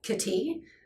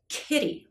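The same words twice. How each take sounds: First: The stress is on the second syllable. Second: The stress is on the first syllable. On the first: The speaker calls it wrong. "that's a completely different word. That's wrong" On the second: The speaker calls it right. "it has stress on the first syllable"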